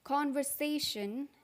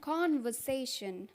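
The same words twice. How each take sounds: First: American accent, with the r sound pronounced. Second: British accent, with the r sound dropped. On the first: "American में इसको बोलते हैं" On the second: "British में इसको बोलते हैं; आर का साउंड नहीं आता है ब्रिटिश में"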